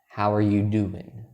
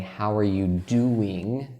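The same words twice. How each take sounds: First: The word doing ends without a g sound. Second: The word doing ends with a g sound. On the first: "For me, personally, I say do in" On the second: "the correct way would be to say"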